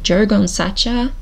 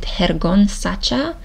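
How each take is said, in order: First: The name is read with an American-style pronunciation. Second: The name is read with a Spanish-style pronunciation. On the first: "in American like" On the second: "Is it Spanish?"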